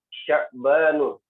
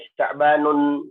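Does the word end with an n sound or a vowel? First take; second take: vowel; n sound. First: The word ends on a plain u vowel. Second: The word ends with an added n sound. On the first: The speaker calls it right. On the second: The speaker calls it wrong.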